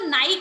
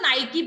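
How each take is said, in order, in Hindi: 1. शब्द का अंत एक व्यंजन ध्वनि पर होता है। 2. शब्द का अंत एक अंतिम स्वर ध्वनि पर होता है। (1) "उसको नाइक नहीं कहते" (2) "उसको नाइकी बोलते हैं"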